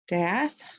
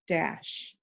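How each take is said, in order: First: The word ends with a plain s sound. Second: The word ends with an sh sound. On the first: The speaker calls it wrong. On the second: The speaker calls it right.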